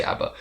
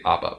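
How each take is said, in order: First: "abba" said AB-uh; flat cat vowel starting "abba"; ABBA with short a. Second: "abba" said AH-buh; ABBA with broad ah. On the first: Quoting how other people say it, "abba" as AB-uh. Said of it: "When people say abba". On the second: Contrasting own pronunciation with others', "abba" as AH-buh. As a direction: open father vowel starting "abba". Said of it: "I say abba". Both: Shown as a demonstration.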